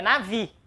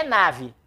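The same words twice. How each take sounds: First: NAVI stressed on the final "vi"; stress on last syllable. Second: NAVE stressed on the first syllable, NA-ve; wrong first-syllable stress. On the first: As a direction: keep "na" light and land on VI in navi. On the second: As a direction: lean on the "na" of nave, dropping the ending. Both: Shown as a demonstration. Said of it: "A sílaba tônica é a última".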